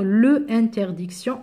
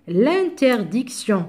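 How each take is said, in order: First: "le interdiction" with a full le before the vowel; unelided article. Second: "l'interdiction" with le run into the vowel; elided article. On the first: Teacher shows what one can't say, "le interdiction" without elision. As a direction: keep le and interdiction as separate words, no elision. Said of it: "on peut pas faire". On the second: Teacher models the noun from interdire, "l'interdiction" slowly elided. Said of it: "on peut pas faire le interdiction". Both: Shown as a demonstration.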